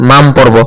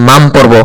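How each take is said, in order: Both takes have the same delivery.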